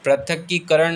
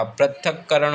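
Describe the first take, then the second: First: पृथकीकरण with an extra long kee; wrong form prithakikaran. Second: पृथक्करण with doubled k, no kee; correct form prithakkaran. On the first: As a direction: say पृथकीकरण as prathakee-karaṇ. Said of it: "पृथकीकरण नहीं होता". (गलत उच्चारण: पृथकीकरण, 'की' के साथ) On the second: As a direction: say पृथक्करण as prathak-karaṇ. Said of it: "पृथक्करण होता है". (सही उच्चारण: पृथक्करण, दोहरा 'क') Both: Shown as a demonstration.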